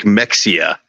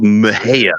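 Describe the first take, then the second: First: Mexia said as "MEK-see-uh"; spelling pronunciation. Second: Mexia said as "muh-HAY-uh"; local pronunciation. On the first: Explaining the town's spelling, Mexia read out as MEK-see-uh. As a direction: say Mexia as written, with a ks for the x. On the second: Naming wife's small Texas hometown, Mexia pronounced muh-HAY-uh. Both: Shown as a demonstration. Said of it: "It's spelled like Mexia".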